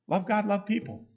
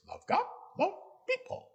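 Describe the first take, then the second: First: It is said in a normal speaking voice. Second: It is said in a funny put-on voice.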